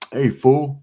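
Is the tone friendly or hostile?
hostile. It sounds hostile and confrontational. It is a disrespectful insult. "then you're like, hey, whoa, whoa, hold up"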